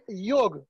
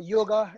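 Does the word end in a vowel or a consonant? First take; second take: consonant; vowel. First: The word ends on a consonant, no final vowel. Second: The word ends with a final vowel sound. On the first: This is the original form of the word. "Yoga is actually yog" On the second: This is how the West pronounces the word. "in the Western pronunciation"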